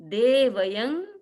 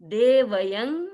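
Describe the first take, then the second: No difference in how they are said.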